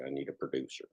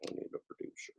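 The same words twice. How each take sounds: First: Weary mutter. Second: Breathy whisper, no voice at all; tired whispered plea. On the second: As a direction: whisper it to yourself, worn out. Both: Real, not acted.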